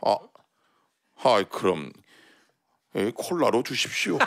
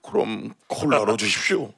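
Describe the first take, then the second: First: Low, soft and timid; meek old man. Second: Put-on meek old man. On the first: Retold or imitated. Old man gives in meekly. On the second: Old man repeats order meekly. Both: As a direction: give in like a scolded kid.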